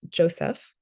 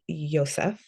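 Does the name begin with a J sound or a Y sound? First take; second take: J sound; Y sound. First: The name begins with a J sound. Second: The name begins with a Y sound.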